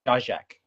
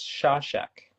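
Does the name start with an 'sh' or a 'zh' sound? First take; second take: zh; sh. First: The name starts with a voiced 'zh' sound. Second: The name starts with a voiceless 'sh' sound. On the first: The speaker calls it right. "it's probably like Zajak" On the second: The speaker calls it wrong. "I've been told that it's Shashak"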